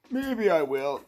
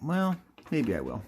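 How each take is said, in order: First: High, playful put-on voice; silly put-on voice. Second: Said in the usual way. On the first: Host teases doing the voice again, high put-on voice. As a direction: slip back up into the silly voice. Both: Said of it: "maybe I will do that voice again".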